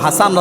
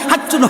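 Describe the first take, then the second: First: The name is said with a clear s sound. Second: The name is said with a doubled ch sound. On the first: The speaker calls it right. "কত সুন্দর নাম" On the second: The speaker calls it wrong. "এই সুন্দর নামকে বিগড়িয়ে"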